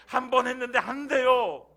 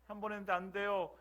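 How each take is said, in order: First: 한 번 했는데 안 돼요 shouted high and loud; loud exclaim. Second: Said in the usual way. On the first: Shown as a demonstration. Pastor crying out to the congregation, loud and high. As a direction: belt out 안 돼요 with a loud falling end. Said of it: "repeated softer". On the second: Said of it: "repeated louder".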